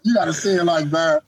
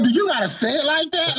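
First: Said in the usual way. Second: High, exasperated mock complaint; retold exasperation. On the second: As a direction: ask "you" in disbelief, pitched up. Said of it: "I'm like".

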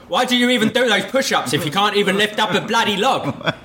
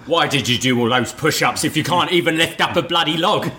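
First: Much higher, faster, hammed-up posh Cockney; posher Cockney butler accent. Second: Raised Cockney butler voice; Alfred's Cockney accent. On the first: Actor retrying the line for his director, posher Cockney. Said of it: "remember he's a posh butler". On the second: Retold or imitated. Alfred chiding trapped Bruce, in a Cockney accent. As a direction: scold him in a put-on Cockney accent. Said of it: "I love his accent".

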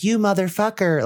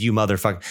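First: High raspy mock demon voice; lightly imitating the demon; demonic double voice. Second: Said in the usual way. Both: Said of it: "it sounds like that".

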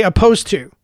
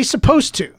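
First: "opposed to" said for supposed to, no leading s; childish mispronunciation. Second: "supposed to" with the opening s sounded; correct pronunciation. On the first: Retold or imitated. Quoting adults who never got corrected, childish mispronunciation. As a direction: drop the s: "opposed to". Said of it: "with no accents that say". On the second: Shown as a demonstration. Telling people how to say it, correct pronunciation. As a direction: start it on a clear s: "supposed to". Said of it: "Don't say it like that".

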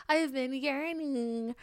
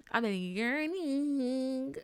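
First: Higher, slow "I have been yearning" with stress on "I"; playful longing emphasis on "I"; stretched yearning. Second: Slow, high, stretched "yearning"; long yearning moan on "yearning"; drawn-out yearning. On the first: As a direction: lean on "I" and draw it out. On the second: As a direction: drag out "yearning" longingly. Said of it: "a bitch been yearning". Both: Real, not acted.

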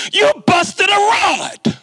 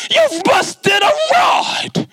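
First: High, slow, dragged-out mechanic's verdict. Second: Repeated verdict. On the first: Mechanic breaks the news to the student, in a high, slow, drawn-out voice. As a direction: stretch it out like bad news for a kid. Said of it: "he says". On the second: Mechanic repeats the bad news to the clueless student, in a high, slow, shouted drawl. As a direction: hammer the bad news home, dragging it out. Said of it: "I go". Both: Retold or imitated.

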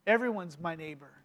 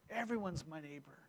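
First: Soft repetition. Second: Much softer and lower, almost breathed; near whisper. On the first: Preacher repeating the lesson softly to the congregation. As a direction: lower and softer, spoken to sink in. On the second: Preacher echoing the lesson in a hushed murmur. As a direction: let it fade to a hush. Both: Shown as a demonstration. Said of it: "repeated for effect".

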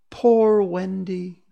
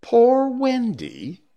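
First: Slow, high plaintive moan; drawn-out mournful cry. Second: Slow, very high wail rising at the end; plaintive, rising cry; questioning moan. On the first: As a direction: wail it out long and high. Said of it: "it moans". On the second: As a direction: draw it out high and loud, ending upward. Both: Acted.

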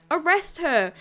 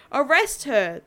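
First: Loud, urgent command shout; yelling. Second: Repeated loud command shout; yelling. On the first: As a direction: bark the order at your partner. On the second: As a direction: shout the order again, full force. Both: Acted. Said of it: "the officer yells out".

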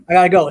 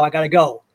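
First: Mock panic, louder on the repeat; scrambling to leave, voice up; hurried, louder. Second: Said in the usual way. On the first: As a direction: blurt it out, rushing off. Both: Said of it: "So I scrambled".

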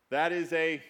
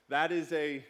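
The two takes are said the same way.

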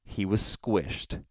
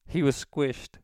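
First: Slow, drawn-out delivery; deliberate statement. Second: High put-on voice; prank phone voice. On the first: Shown as a demonstration. Prankster quoting his customary answer, slow and deliberate. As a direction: state it slowly in your own register. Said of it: "I say". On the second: Prankster explaining the death to the caller, high put-on voice. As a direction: say it pitched up, in phone-prank character. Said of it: "I do it in this voice".

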